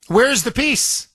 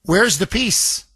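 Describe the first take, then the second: First: Rising disbelief. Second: Said in the usual way. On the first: Real, not acted. Repeats question, pushes it higher.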